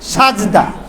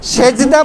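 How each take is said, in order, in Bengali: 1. প্রথম সিলেবলে 'a' স্বর আছে: saj। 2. প্রথম সিলেবলে 'e' স্বর আছে: sej। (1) "বলি সাজদা।" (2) "সেজদা বলবেন না।"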